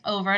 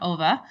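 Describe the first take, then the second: First: The word ends with an r sound. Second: The word ends with an open 'ah' vowel. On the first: The speaker calls it right. "there shouldn't be A at the end of over" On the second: The speaker calls it wrong. "The Australian accent slips out sometimes"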